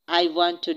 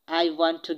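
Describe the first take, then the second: No difference in how they are said.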